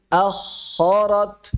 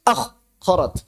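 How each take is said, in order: First: "Akharat" slow, the kh streaming on unbroken; flowing kh. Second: "Akharat" broken after akh with a gap; wrongly cut off. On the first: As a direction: let air keep flowing through the kh of "Akharat". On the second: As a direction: chop "Akharat" into akh, pause, arat. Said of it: "Jangan terputus". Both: Shown as a demonstration.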